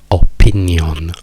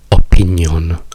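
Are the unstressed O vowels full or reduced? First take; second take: full; full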